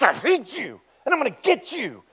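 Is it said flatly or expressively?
expressively. It is said expressively, with menace.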